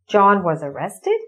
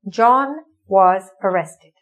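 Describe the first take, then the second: First: The voice rises at the end. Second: The voice falls at the end. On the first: It asks in surprise whether this is true. "If we ask it as a question, ... you're surprised" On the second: It states a fact. "This is a sentence"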